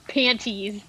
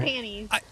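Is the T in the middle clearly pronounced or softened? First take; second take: clear; softened. First: The T in the middle is pronounced clearly. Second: The T in the middle is softened, rolled through. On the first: The speaker calls it wrong. "It's not panties. You cannot emphasize the T" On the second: The speaker calls it right. "You just gotta like roll through it"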